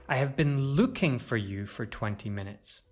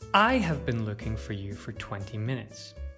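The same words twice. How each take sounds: First: The word looking carries the main stress. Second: The word I carries the main stress. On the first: The action itself is the most important part. "To stress looking shows that the action is the most important part" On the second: It was this person looking, not someone else. "If we stress I, it emphasizes who is looking"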